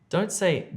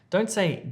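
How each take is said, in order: No difference in how they are said.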